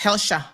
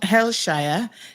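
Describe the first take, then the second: First: The name ends with a short 'sha' sound. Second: The name ends with a full 'shire' sound. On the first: The speaker calls it right. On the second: The speaker calls it wrong.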